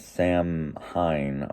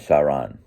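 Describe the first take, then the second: First: The middle h is pronounced, ending in hine. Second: The middle h is silent, with no hine. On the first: The speaker calls it wrong. "it's not Sam Hine" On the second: The speaker calls it right. "the way he pronounced it almost sounds like Samhain or Saran"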